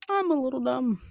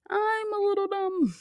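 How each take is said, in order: First: Said in the usual way. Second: Squeaky self-mock. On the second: Real, not acted. Self-mocking repeat.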